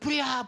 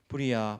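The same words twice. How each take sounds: First: It is said urgently, with alarm. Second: It is said calmly, without urgency.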